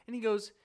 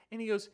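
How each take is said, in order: Both takes have the same delivery.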